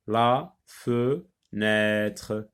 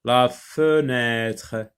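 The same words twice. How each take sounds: First: "La fenêtre" very slowly split, la... fe... nêtre; syllable by syllable. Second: "La fenêtre" slowly, as one joined phrase; careful word reading. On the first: Teacher sounding out for pupils, syllable by syllable. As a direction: leave a gap after each syllable of "La fenêtre". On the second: Teacher reading the list for pupils, slow whole words. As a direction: read "La fenêtre" slowly without breaking it up. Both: Shown as a demonstration. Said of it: "on va les lire d'abord".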